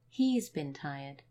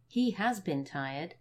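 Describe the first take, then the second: First: The verb is contracted, with a short 'bin'. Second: The verb is said in full, with a long 'been'.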